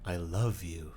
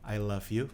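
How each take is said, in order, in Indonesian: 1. Itu diucapkan dengan kebiasaan bicara orang lain yang ditiru. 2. Itu diucapkan dengan suara biasa sehari-hari. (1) "kalau yang ditiru ngomongnya" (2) "kalau orang biasanya ngomong"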